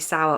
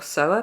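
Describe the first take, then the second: First: The word rhymes with 'hour'. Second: The word rhymes with 'lower'. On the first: "if it should be sour or sower" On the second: "if it should be sour or sower"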